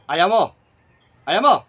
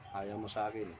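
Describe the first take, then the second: First: Loud, short, insistent; pressing question. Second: Much lower and softer; quiet acceptance. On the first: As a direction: demand a yes or no. Presses spirit about friendship. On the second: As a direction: repeat the refusal under your voice. Accepts the spirit's refusal quietly. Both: Real, not acted.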